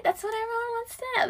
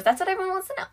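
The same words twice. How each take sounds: First: High, soft mock-gossipy voice; teasing. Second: Said in the usual way. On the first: Podcaster teasing listeners with the tea, high and coy. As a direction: pitch it way up and softer, teasing the gossip.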